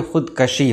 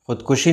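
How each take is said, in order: First: ख़ुदकशी with short "a" after k; correct pronunciation. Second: ख़ुदकुशी with short "u" after k; wrong pronunciation. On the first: Teacher correcting what many say, correctly pronounced. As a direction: say "khud-ka-shi" for ख़ुदकशी. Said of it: "बल्कि ख़ुदकशी होता है". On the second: Teacher showing what many people say, mispronounced. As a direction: say "khud-ku-shi" for ख़ुदकुशी. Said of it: "ख़ुदकुशी नहीं होता है". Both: Shown as a demonstration.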